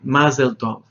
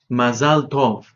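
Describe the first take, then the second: First: The first word is said with an 'e' vowel. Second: The first word is said with an 'a' vowel. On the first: This is the Yiddish pronunciation. The speaker calls it wrong. "Mazel Tov no es hebreo, es Yiddish" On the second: This is the Hebrew pronunciation. The speaker calls it right. "Mazal Tov es correcto"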